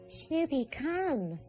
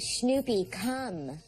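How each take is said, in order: First: It is said in a higher, softer voice. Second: It is said in a lower, firmer voice.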